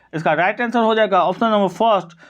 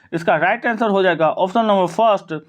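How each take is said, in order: No difference in how they are said.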